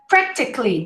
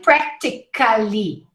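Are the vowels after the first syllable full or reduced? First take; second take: reduced; full. First: Only the first vowel is clear; others are swallowed. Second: Every vowel is pronounced fully, syllable by syllable. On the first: The speaker calls it right. "You practically don't hear any vowels except for the first one" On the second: The speaker calls it wrong. "Don't say practically"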